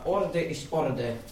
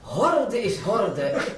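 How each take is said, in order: First: The word orde starts with a vowel. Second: The word orde starts with an h. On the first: The speaker calls it right. "moest hij zeggen" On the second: The speaker calls it wrong. "Zeggen ze ook de H waar die niet voor hoeft"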